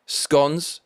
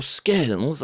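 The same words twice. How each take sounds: First: "scones" said as skonz, rhyming with stones; the everyday skonz; scones, plain. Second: "scones" said the posh way, as skonz with a short vowel; mock-posh "scones"; posh pronunciation. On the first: Shown as a demonstration. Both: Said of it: "as the posh people call it".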